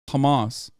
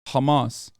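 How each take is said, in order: Both takes have the same delivery.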